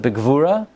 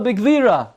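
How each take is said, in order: First: The stress falls on the final syllable. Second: The stress falls on the next-to-last syllable. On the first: The speaker calls it right. "It's a milra" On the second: The speaker calls it wrong. "Every single word is incorrect. Not only are the nekudos wrong, but the milel morel is wrong"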